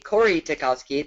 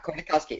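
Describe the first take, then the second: First: An 'ee' sound is heard after 'Kor'. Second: No vowel sound is heard after 'Kor'. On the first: The speaker calls it wrong. "then you can hear all the letters" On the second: The speaker calls it right. "see the Y as being silent"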